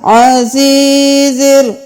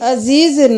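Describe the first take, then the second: First: The opening sound comes deep from the throat. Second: The opening sound is a plain vowel. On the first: The speaker calls it right. "आइन को गले के दरमियान से" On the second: The speaker calls it wrong. "अजीजिर नहीं करना"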